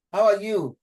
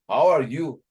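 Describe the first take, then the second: First: "How are you?" pitched much higher, stress on "are", falling; tone demo, high take. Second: Are stressed, higher and louder; How are you with the weight on "are"; tone demo, take two. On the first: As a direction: lift the whole question high and drop at the end. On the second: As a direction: lean on "are". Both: Shown as a demonstration. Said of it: "I would take it like".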